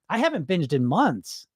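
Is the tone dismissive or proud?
proud. It sounds calm, grounded and proud of it. The achievement is celebrated as amazing. The speaker calls it right. "You should be saying it like this"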